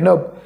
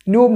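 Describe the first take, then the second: First: The vowel sounds like uh. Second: The vowel sounds like oo. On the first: The speaker calls it right. "यूचा उच्चार अ" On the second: The speaker calls it wrong. "नाही"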